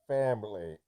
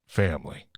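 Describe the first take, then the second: First: A put-on menacing villain voice. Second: A put-on gruff action-hero voice. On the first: "now do Bane" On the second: "I got to do my Vin Diesel voice"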